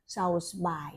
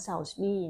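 First: เซลส์บาย with the last syllable said as บาย, like bye; wrong reading. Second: เซลส์บี้ with the last syllable said as บี้, like bee; corrected reading. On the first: Reviewer stumbles on the author's name, saying เซลส์บาย. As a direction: read เซลส์บาย ending in a long "baai". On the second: Reviewer corrects the author's name to เซลส์บี้. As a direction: read เซลส์บี้ ending in a "bii" sound. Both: Shown as a demonstration. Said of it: "น่าจะอ่านว่า เซลส์บี้".

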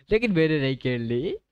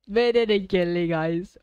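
First: Said in the usual way. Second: Higher and louder, pressing the point; louder insistent repeat. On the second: Real, not acted. Streamer to viewers, repeating his protest, higher and louder. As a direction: insist again, voice rising.

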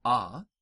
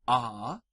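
First: A said as a short "ah"; short Latin A. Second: A held as a long "ah"; drawn-out "ah" for A; long Latin A. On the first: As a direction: say A as a brief ah. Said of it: "The short vowels are as follows". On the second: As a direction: say A as a lengthened ah. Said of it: "The long vowels in Latin". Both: Shown as a demonstration.

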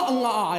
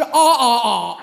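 First: "嗯啊啊" quoted in a speaking voice, starting on a closed hum; spoken "嗯啊啊", hummed first syllable; mistaken refrain. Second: "啊啊啊" all open ah, drawn out and firm; stretched, emphatic "啊啊啊" with no hum at the start; corrected refrain. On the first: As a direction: say "嗯啊啊" as a puzzled quote, opening with ng. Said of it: "就最后那个嗯啊啊". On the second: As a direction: demonstrate "啊啊啊" slowly with every syllable an open ah. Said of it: "什么嗯啊啊呀". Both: Shown as a demonstration.

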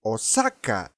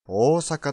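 First: "大阪" as o-SAK-ka, short O; Spanish stress. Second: "大阪" with long first O and even stress; Japanese intonation. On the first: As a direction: punch the middle syllable of "大阪". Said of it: "例えば、スペイン語を話せる人に、". (「大阪」をスペイン語風にサを強く) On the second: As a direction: say "大阪" the native Japanese way. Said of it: "と聞かれてしまいますね". (「大阪」を日本語の抑揚で) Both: Shown as a demonstration.

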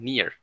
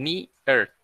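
First: "near" run together as one syllable; una sola sílaba. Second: "near" split in two, "ni... er"; sílabas separadas. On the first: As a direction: say "near" softly, with no break inside. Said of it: "dicen near". ("near" de corrido, en una sola sílaba) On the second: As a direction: break "near" into two slow, separate syllables. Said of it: "Ustedes no separan el near". ("near" separado en dos sílabas: "ni... er") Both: Shown as a demonstration.

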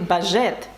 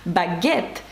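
First: "бажет" with zh in place of hard g; mistaken reading. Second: "Багет" with hard g, not zh; correct French pronunciation. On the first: Teacher showing the word without the U, mistaken reading. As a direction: misread baguette as "бажет", with a zh. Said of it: "ми маємо сказати". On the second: Teacher showing what we need to say, correct French pronunciation. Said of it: "що нам треба сказати". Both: Shown as a demonstration.

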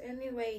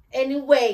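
First: Said in the usual way. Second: Loud hammed-up Anyway with falling end. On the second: Restarting her video with a big loud Anyway. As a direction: belt out Anyway like a showman. Repeats the word loudly for effect.

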